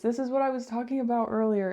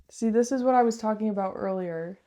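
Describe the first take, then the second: First: Hollow, echoey small room sound; echoing room. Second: Echoing room. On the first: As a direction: speak in a closed echoing room. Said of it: "really echoey in here 'cause I shut the door". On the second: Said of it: "really echoey in here". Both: Real, not acted.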